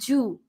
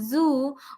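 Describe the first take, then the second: First: The word begins with a j sound. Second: The word begins with a buzzing z sound. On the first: The speaker calls it wrong. "we uh, pronounce it as G" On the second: The speaker calls it right. "Z makes a sound of Z"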